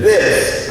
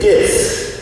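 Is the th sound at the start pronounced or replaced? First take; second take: pronounced; replaced. First: It starts with a clear th sound. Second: The th sound is replaced by another sound. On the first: "with the T H sound" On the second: "we tend to say this"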